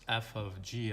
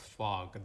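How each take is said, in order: First: The letters are said separately with "of". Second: It is said as one short word. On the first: The speaker calls it right. "This is just f of g of x" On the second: The speaker calls it wrong. "this is not pronounced as fog"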